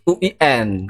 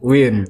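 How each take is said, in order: First: It is spelled out as three separate letters. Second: It is said in one breath as one word. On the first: The speaker calls it right. "harus U I N" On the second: The speaker calls it wrong. "tidak boleh W I N"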